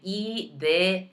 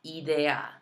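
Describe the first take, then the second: First: Idea as ee-DEH-ah, not eye-dee-a; Spanish pronunciation. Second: Idea as ee-DEH-ah, pure vowels; Spanish pronunciation. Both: Shown as a demonstration. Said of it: "make sure you're saying idea".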